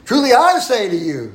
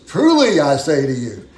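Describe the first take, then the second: First: "I" stressed, the line pitched higher and louder; emphasis on I. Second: "Truly" slow and weighty, leaning on the first word; emphasis on truly. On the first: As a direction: lift and punch the word "I". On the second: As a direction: press down on "Truly", take it slowly. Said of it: "notice the emphasis". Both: Shown as a demonstration.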